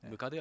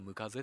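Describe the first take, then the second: First: The last syllable starts with a d sound. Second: The last syllable starts with a z sound. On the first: This is the standard form of the word. "ムカデはムカゼって言います" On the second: This is the local dialect form of the word. "ムカゼって言います"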